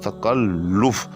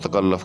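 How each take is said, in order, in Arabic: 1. اللام المضعّفة تتبعها حركة 'u'. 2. اللام المضعّفة تتبعها حركة 'a'. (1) "लाम के ऊपर जो है वो पेश आएगी" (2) "ये गलत तलफ़ुज़ है"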